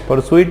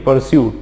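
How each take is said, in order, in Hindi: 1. इस शब्द के अंत में दो अक्षर हैं, 'soo-et'। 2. इस शब्द के अंत में एक अक्षर है, 'syoot'। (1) "परसुएट नहीं"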